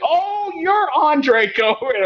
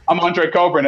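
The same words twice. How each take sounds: First: High, slow, drawn-out disbelief; as if the voice never matched the face; surprised recognition. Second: Said in the usual way. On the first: Retold or imitated. Office hosts meeting the conference-call voice, high slow surprise. Hosts meet him in person.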